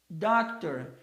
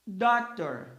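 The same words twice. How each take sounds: First: Doctor repeated, stress on DOC; English word doctor. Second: Doctor with stress on DOC; English word doctor. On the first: (repetição de "Doctor" com tônica em DOC) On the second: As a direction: model doctor for the class. (pronúncia de "doctor" com tônica em DOC) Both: Shown as a demonstration.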